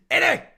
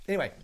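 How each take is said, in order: First: Very loud, high-pitched "anyway"; playful outburst. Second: Said in the usual way. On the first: Pretend. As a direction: burst out high and loud to get back on track. Loud burst before resuming the topic.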